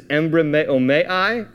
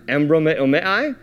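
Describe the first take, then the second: First: Embrameomai said as em-bra-me-o-mai, each syllable clear, rising at the end; Greek word spelled out. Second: Embrameomai said again as em-bro-me-o-mai, smoother and a little quicker, rising at the end; Greek word repeated. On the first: Preacher teaching the congregation the Greek word, careful syllables. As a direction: sound out embrameomai slowly syllable by syllable. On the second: Preacher repeating the Greek word for the congregation, smoother. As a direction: repeat embrameomai once more so it sticks. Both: Shown as a demonstration. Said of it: "It is embrameomai".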